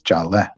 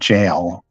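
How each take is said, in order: First: It ends with a short eh sound. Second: It is said as one syllable, like jail. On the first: The speaker calls it right. "it's a short eh sound at the end" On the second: The speaker calls it wrong. "so it's not jail"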